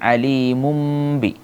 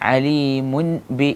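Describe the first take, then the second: First: The ending is pronounced as a nasal 'm' sound. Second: The ending is pronounced with a clear 'n' sound. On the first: The speaker calls it right. "ആ തെൻവീനിനെ മീമാക്കി മറിക്കണം" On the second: The speaker calls it wrong. "എന്നല്ല"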